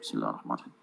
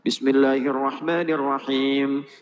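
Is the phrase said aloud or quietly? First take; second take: quietly; aloud. First: It is recited very quietly, almost unheard. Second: It is recited aloud in a clear voice. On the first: The opening is recited silently to oneself. "beliau silent, sir" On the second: The opening is recited audibly to the congregation. "dibacakan jahar bismillahnya"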